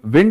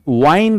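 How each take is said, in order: First: The vowel is short, as in 'pinned'. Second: The vowel is long, as in 'kind'. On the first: It names moving air. "wind is noun" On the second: It means to turn or coil something. "that is verb"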